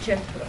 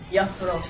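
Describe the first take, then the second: First: The first vowel sounds like 'e'. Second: The first vowel sounds like 'a'. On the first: The speaker calls it right. "Ale čte se to Jeffro" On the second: The speaker calls it wrong. "se mi blbě prostě vyslovuje prostě Jafro"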